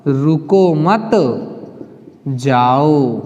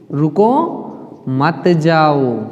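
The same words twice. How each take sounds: First: रुको मत joined and slow, long break, then low drawn-out जाओ; pause after मत. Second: रुको rising, a break, then मत जाओ very slow and falling; pause after रुको. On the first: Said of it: "और दूसरे में क्या हुआ?". (रुको मत साथ में, विराम, फिर जाओ) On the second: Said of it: "दूसरा उदाहरण क्या हुआ". (रुको के बाद विराम, फिर मत जाओ) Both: Shown as a demonstration.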